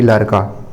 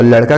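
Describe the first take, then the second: First: "लड़का" with tapped r replacing the flap ṛ; Chhattisgarhi pronunciation. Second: Said in the usual way. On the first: Shown as a demonstration. Teacher gives the dialect example, "लड़का" with r for ṛ. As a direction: say "लड़का" as larka, plain r. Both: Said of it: "ड़ के स्थान पर र".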